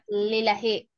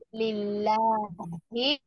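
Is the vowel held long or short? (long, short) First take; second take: short; long. First: The vowel is kept short. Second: The vowel is held long. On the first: The speaker calls it wrong. "not lillahi" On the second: The speaker calls it right. "I like the way you prolong it. It's lillahi"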